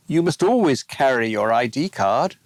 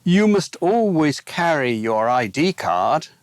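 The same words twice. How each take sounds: First: ALWAYS stressed, rising at the end; "always" leaned on, rising tune. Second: YOU stressed, rising at the end; "you" leaned on, rising tune. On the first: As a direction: hit "always", then lift. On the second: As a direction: hit "you", then lift. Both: Shown as a demonstration.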